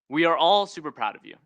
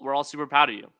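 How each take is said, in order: First: It is said in a lively voice. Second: It is said in a flat voice.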